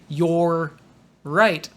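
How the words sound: There is a stop between the two words. The speaker calls it wrong. "don't say you're right. You don't need to stop in the middle"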